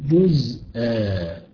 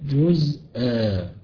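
The two takes are said the same way.

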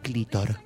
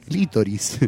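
First: The word ends in -or, two sounds dropped. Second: The word ends in -oris, with all sounds. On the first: The speaker calls it wrong. "Le sacan dos letras" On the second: The speaker calls it right. "es clítoris"

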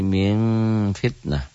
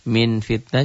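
First: The n is blurred into a nasal sound. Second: The n is pronounced clearly.

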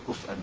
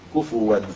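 First: The word has a glottal stop and silent f. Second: The word has a w sound after vowel u. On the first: "كما هو في قراءة حمزة وخلف" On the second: "هذا في حفص كفواً بضم الفاء"

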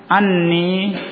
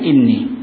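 First: The word begins with an 'a' vowel. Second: The word begins with an 'i' vowel. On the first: The clause continues the sentence, explaining the sign. "tidak dibaca dengan fathah" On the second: The clause starts a new sentence. "dalam satu qira'ah dibaca dengan inni"

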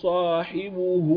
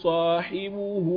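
Both takes have the same delivery.

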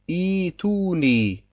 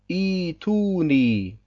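No difference in how they are said.

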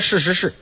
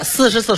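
First: Every syllable begins with an sh sound. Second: The first and last syllables begin with s.

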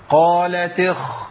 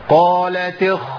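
No difference in how they are said.

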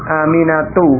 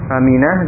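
First: The final letter is read aloud, ending in -atu. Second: The word stops on the final letter, ending in -ah.

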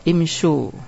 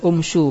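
First: The word begins with an i vowel. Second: The word begins with a u vowel. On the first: The speaker calls it right. "Sehingga dibaca tetap kasro" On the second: The speaker calls it wrong. "Bukan dibaca umsu"

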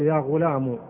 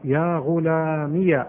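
First: The word ends in a short u sound. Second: The word ends in ee followed by ya. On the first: "تحذف الياء وتضع بدل منها ضمة" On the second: "أثبتت الياء إيش؟ متحركة"

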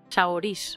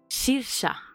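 First: The name is said close to its spelling. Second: The name is said like 'seer-sa'. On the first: The speaker calls it wrong. "¿Sabes cómo se pronuncia Saroís?" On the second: The speaker calls it right. "Su nombre se dice Sirsa"

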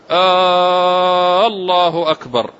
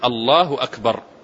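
First: The opening vowel is drawn out long. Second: The opening vowel is short. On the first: It asks whether God is greatest. The speaker calls it wrong. "يمد في غير موضع المد" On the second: It declares that God is greatest. The speaker calls it right. "لا يبد أن يقول الله أكبر"

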